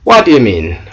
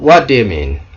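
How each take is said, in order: First: The words are run together and shortened. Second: The same.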